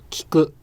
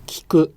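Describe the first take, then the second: No difference in how they are said.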